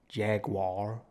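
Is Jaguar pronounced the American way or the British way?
American. It is said with an American pronunciation. The speaker calls it wrong. "to any American fans, ... not Jaguar"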